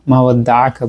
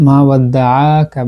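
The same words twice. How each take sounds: First: "ওয়াদ্দাআকা" with the দা not over-stretched; without extra madd. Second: "ওয়াদ্দাআকা" with the দা held too long; over-lengthened madd. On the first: Teacher showing what was recited, "ওয়াদ্দাআকা" without extra madd. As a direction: keep "ওয়াদ্দাআকা" short, no added lengthening. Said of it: "মা ওয়াদ্দাআকা বলেছি". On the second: Teacher showing what was not recited, "ওয়াদ্দাআকা" with over-lengthened madd. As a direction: stretch the long aa in "ওয়াদ্দাআকা" well out. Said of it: "বলিনি, মা ওয়াদ্দাআকা বলেছি". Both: Shown as a demonstration.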